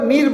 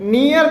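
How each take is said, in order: First: It is said with one long vowel, 'neer'. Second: It is said with two vowel sounds, 'nee-ar'. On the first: This is the American way used in the song. "इसमें नियर को नीर बोल रही है" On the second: This is the usual way it is read in India. "हमेशा नियर पढ़ते आ रहे हैं"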